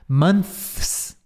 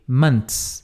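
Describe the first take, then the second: First: It ends with a 'th' sound before the s. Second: It ends with a 't' sound before the s. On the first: "o T H e depois o S, assim, ó" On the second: "Eles pronunciam assim, ó, com T"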